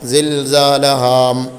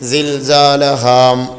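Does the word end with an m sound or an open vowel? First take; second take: m sound; m sound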